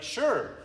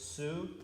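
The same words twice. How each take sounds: First: It sounds like the English word sure. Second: It is said as two syllables, su-re. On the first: The speaker calls it wrong. "It looks like sure" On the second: The speaker calls it right. "but it's sure"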